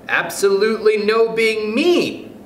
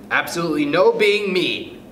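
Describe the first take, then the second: First: Put-on high, slow, drawn-out child voice; child's suggestion. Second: Raised, measured rule-reading; chairman reading out. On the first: Mildred suggests a law to the chairman, high and deliberate. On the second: Stuart pretends to read the rule book, officially. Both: A narrator's reading.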